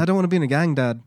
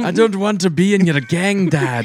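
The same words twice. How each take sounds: First: Put-on British accent. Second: Loud, high hammed-up Scottish; Scottish accent. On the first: Correcting a co-host's impression, high British accent. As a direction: do a British son protesting. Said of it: "I think he's more British". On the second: Son protesting to his dad, loud mock Scottish accent. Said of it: "It was a Scottish".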